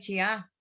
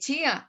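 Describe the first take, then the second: First: The stress is on the second syllable. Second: The stress is on the first syllable. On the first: The speaker calls it wrong. "no habla de chiá" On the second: The speaker calls it right. "Uno habla de chía"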